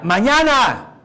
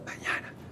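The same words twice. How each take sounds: First: It is said much louder. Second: It is said very quietly.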